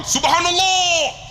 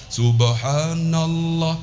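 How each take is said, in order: First: High, slow, loud drawn-out call; leading zikir. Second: Slow, low droning chant; sung, drone Subhanallah back very slowly; sung, zikir response. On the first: Guide calling zikir to his pilgrims, loud call. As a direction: call SUBHANALLAH out long and loud. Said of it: "Saya pegang". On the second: Pilgrims echoing their guide, slow low chant. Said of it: "Semua bukan ikut saya". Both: Retold or imitated.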